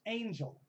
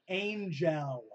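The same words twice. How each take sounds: First: The second syllable has a reduced schwa vowel. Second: The second syllable has a full, clear vowel. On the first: The speaker calls it right. "Just sing a schwa" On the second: The speaker calls it wrong. "the other thing that bugs me"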